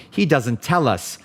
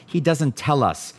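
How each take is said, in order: Both takes have the same delivery.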